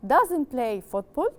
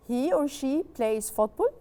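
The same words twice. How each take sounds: First: Doesn't said slowly and leaned on; slow, clear teacher model of doesn't; stressed negative. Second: Slow plain statement. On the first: Teacher modelling the negative for students, slow and stressed. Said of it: "If I want to make it negative". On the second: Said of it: "teacher modelling statement". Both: Shown as a demonstration.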